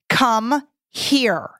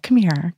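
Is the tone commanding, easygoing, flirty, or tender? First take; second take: commanding; tender. First: It sounds firm and commanding. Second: It sounds soft and caring. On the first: Do it now. "which means do it now" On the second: The listener needs a little extra love. "speaking to somebody who needs a little extra love"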